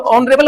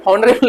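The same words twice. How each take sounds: First: "ऑनरेबल" with a silent h; सही उच्चारण. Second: "ऑनरेबल" with the h wrongly sounded; गलत उच्चारण. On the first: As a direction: start "ऑनरेबल" straight on the vowel. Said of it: "ऑनरेबल होता है ये". ("ऑनरेबल" बिना "ह" ध्वनि के बोलें) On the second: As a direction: say "ऑनरेबल" as "honrable", h audible. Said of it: "बहुत गंदा साउंड करेगा". ("ऑनरेबल" को "हॉनरेबल" की तरह "ह" के साथ बोलें) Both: Shown as a demonstration.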